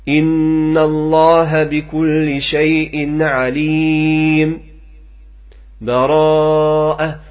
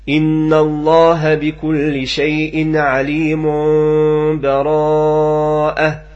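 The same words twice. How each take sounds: First: A brief pause without breath comes before the last word. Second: The words run on without any pause. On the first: "ثم الوجه الآخر السكت ... فنقف واحد السكتة لطيفة بدون أخذ النفس" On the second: "ثم الوجه الآخر الوصل"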